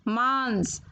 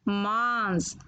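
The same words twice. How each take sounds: Both takes have the same delivery.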